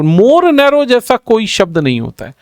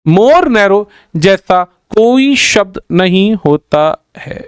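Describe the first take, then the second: First: Said in the usual way. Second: Slow, word by word, pausing between "more narrow", "जैसा", "कोई", "शब्द"; slow emphatic repeat. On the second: Shown as a demonstration. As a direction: spell out the rule slowly, each word set apart. Rule repeated slowly for emphasis. (धीरे-धीरे, एक-एक शब्द पर ज़ोर देकर)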